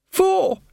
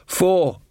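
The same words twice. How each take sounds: First: Very high, urgent prompt; hissed prompt. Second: Said in the usual way. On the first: A narrator's reading. Tinker prompting Jason's faltering count, high hissed prompt. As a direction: squeeze the word out high and sharp. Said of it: "hissed Tinker". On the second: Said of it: "said Jason".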